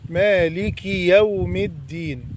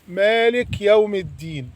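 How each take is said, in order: First: The k is followed by a short i. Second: The k has no vowel after it. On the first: The speaker calls it right. "لازم تكسر الكاف" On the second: The speaker calls it wrong. "هذا خطأ"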